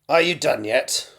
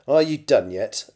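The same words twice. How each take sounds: First: It is said in a strained put-on character voice. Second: It is said in the reader's ordinary natural voice.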